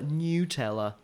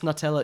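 First: The first syllable sounds like 'new'. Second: The first syllable sounds like 'nut'.

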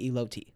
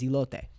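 First: The word is said with an English-sounding pronunciation. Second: The word is said with a Spanish-sounding pronunciation. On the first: The speaker calls it wrong. "that's not how it's pronounced" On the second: The speaker calls it right. "The proper pronunciation of the word is elote"

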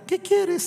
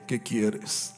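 First: The voice is high and small like a child. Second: The voice is the speaker's deep adult voice.

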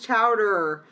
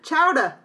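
First: The final r sound is pronounced. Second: The final r sound is dropped. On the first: The speaker calls it right. "The correct pronunciation is chowder" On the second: The speaker calls it wrong. "And he said"

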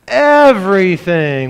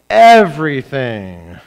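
First: It is said with more energy. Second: It is said with less energy.

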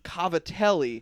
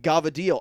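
First: It begins with a K sound, said in full. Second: It begins with a G sound, ending clipped. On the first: This is the spelled form of the name. "it's spelled Cavatelli" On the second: This is how the speaker always said it growing up. "I called it Gavadil"

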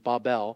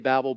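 First: The name is said with a Hebrew pronunciation. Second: The name is said with an English pronunciation. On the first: "the proper Hebrew pronunciation is Babel" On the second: "I say Babel"

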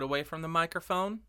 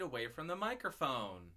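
First: The voice is recorded about one foot away. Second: The voice is recorded about four feet away. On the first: "About 1 foot away from the microphone" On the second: "about 4 feet away from the microphone"

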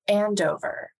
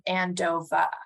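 First: The name is said without a Boston accent. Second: The name is said in a Boston accent. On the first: This is how her own family said it. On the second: This is how a local friend said it.

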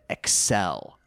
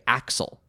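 First: The name is said with a French pronunciation. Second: The name is said with an American pronunciation. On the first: "he's French, so they say it Excel" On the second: "in American English, we say Axel"

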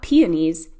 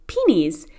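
First: It is said with a standard accent. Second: It is said with an Indiana accent. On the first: This is how outsiders say it. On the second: This is how locals say it.

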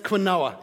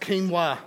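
First: It is said in three syllables, kwin-oh-ah. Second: It is said in two syllables, keen-wah. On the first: "every day of the week, that's quinoa, isn't it?" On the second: "why this word is pronounced quinoa"

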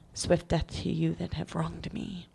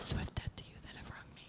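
First: It is said slowly and loudly. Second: It is said quickly and softly.

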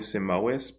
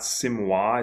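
First: Every letter of the name is sounded out. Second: Some letters of the name are not sounded. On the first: The speaker calls it right. "you do pronounce every sound phonetically" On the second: The speaker calls it wrong. "it's probably not Simois"

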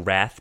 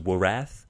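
First: The w at the start is silent. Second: The w at the start is pronounced.

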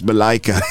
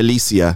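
First: The name is said as Malaika. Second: The name is said as Malicia. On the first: The speaker calls it right. "It's Malaika" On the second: The speaker calls it wrong. "I'm pronouncing your name Malicia"

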